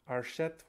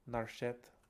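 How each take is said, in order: First: The word begins with a vowel sound. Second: The word begins with an n sound.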